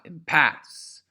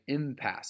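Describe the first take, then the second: First: The stress is on the second syllable. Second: The stress is on the first syllable. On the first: The speaker calls it wrong. "it's not impasse, right? That's not that word" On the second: The speaker calls it right. "the emphasis is trochaic again, im"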